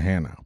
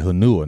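First: Hanau, said HAN-ow; two syllables in Hanau, stress first; correct pronunciation. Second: Hanua, said huh-NOO-uh; mistaken pronunciation. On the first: Correcting a misreading, Hanau as HAN-ow. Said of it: "not Hanau". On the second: Misreading the posting, Hanua as huh-NOO-uh. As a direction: stress the middle syllable of Hanua. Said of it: "I thought it said Hanua". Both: Shown as a demonstration.

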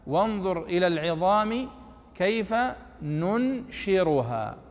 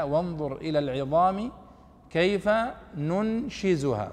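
First: "ننشرها" with an r, nun-shi-ru-haa, drawn out; reading of Nafi. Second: "ننشزها" with a z, nun-shi-zu-haa, drawn out; zay reading. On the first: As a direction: recite slowly with r in "ننشرها". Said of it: "في قراءة نافع". («ننشرها» بالراء) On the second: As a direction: recite slowly, buzzing the z in "ننشزها". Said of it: "نقطة الزاي". («ننشزها» بالزاي) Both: Shown as a demonstration.

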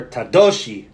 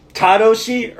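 First: Tadoshi said ta-DO-shi, middle syllable stressed. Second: Tadoshi said TA-doshi, first syllable stressed. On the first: Host tries out a chat name, Tadoshi stressed as ta-DO-shi. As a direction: lean on the DO of Tadoshi. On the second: Host tries out a chat name, Tadoshi stressed as TA-doshi. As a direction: lean on the TA of Tadoshi. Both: Shown as a demonstration. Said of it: "Is it Tadoshi or Tadoshi?".

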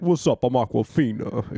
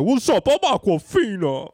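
First: Lightly imitated catchphrase, dropping on the name. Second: High, loud, drawn-out celebrity impression; hammed-up high catchphrase voice. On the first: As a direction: greet in a mildly put-on voice. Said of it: "It wasn't that one". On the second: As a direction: shout the introduction way up high. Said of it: "but she'd be like".

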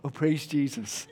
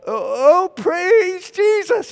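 First: Meek, softly spoken praise; very British reserve. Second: High, drawn-out, awkward loud attempt; louder praise. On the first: Retold or imitated. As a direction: praise half-heartedly, keep it small and polite. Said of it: "Very British". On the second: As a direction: try hard to praise at volume.

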